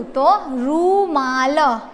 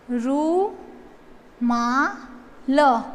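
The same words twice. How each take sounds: First: Said in the usual way. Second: रूमाल drawn out very slowly and softer; slow soft model word. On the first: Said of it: "मालरू". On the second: Shown as a demonstration. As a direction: stretch रूमाल softly for writing.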